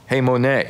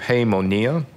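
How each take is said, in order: First: The name ends with an 'ay' sound. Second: The name ends with an 'ee-ah' sound. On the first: The speaker calls it right. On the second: The speaker calls it wrong.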